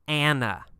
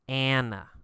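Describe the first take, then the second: Both takes have the same delivery.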